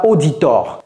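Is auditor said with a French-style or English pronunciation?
French-style. It is pronounced the French way. The speaker calls it wrong.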